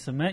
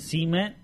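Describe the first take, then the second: First: The word is said casually, sounds run together. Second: The word is said slowly, every sound stressed. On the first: "Instead of saying cement" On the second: "you went cement. Like, emphasize every letter"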